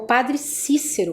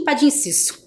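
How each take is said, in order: First: Standard accent, with the words kept clearly separate. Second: Regional accent, with the words run closely together.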